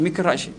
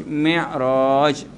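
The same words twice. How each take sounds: First: Mikraj with a hard k sound before the r; wrong pronunciation. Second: Mi'raj said slowly, with no k before the r; correct pronunciation. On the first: Ustaz demonstrates the common wrong Mikraj to the congregation. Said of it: "Bukan Mikraj". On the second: Ustaz corrects the congregation's Mikraj to Mi'raj. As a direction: give Mi'raj its proper Arabic sound. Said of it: "Bukan Mikraj, Mi'raj". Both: Shown as a demonstration.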